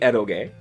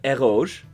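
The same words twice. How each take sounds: First: It is said with a Japanese-style pronunciation. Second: It is said with a French-style pronunciation. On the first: "For the for the uh, Arrow games, it's kusoge, so it would be eroge" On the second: "eroge sounds so much better. Just make it French"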